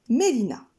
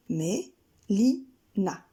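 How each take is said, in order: First: Said in the usual way. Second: Mé-li-na stretched very slowly in three beats; walk out Mé-li-na step by step; slow syllables. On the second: Shown as a demonstration. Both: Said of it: "Trois syllabes, trois pas".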